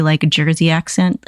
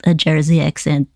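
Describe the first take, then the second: First: Said in the usual way. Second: Lightly voiced hand puppet echo. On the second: Puppet repeating Nana's accent suggestion, light puppet voice.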